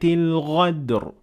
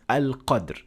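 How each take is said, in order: First: The word is said with a gh sound. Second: The word is said with a q sound. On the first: The word would mean betrayal instead. The speaker calls it wrong. "they turn qaf into ghain" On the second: The word means the original night of decree. The speaker calls it right. "the original ayah, which is al-qadr"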